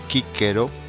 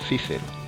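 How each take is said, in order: First: Both c's are pronounced as a hard k sound. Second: The c's are pronounced as soft hissing sounds. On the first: The speaker calls it right. "la grafía C suena siempre K. Decimos" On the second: The speaker calls it wrong. "y no"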